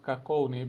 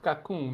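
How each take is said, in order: First: The name is said in an anglicized way. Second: The name is said like a French word. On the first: The speaker calls it wrong. "not Cacone" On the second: The speaker calls it right. "it's pronounced Cocoon ... you pronounce it as a French word"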